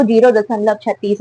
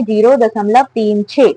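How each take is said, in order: First: Said in the usual way. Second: तीन and छः as two separate digits after दशमलव. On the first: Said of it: "zero दशमलव छत्तीस नहीं पढ़ेंगे". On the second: Shown as a demonstration. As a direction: read "तीन", then "छः", each digit on its own. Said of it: "संख्याओं को एक एक करके पढ़ते हैं". (दशमलव के बाद "तीन", "छः" एक-एक करके)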